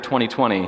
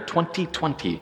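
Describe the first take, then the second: First: It is said in the speaker's ordinary voice. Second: It is said in an imitated announcer voice. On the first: "every time I hear 2020" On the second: "I'm going to hear 2020"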